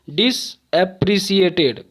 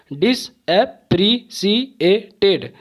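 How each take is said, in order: First: Said in the usual way. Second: डिसएप्रिशिएटेड slowly split into six beats, each rising; syllable by syllable. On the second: Shown as a demonstration. Teacher proving six syllables to students, डिसएप्रिशिएटेड slow and broken up. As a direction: break डिसएप्रिशिएटेड apart with a pause after every syllable. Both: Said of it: "छः बार में ही".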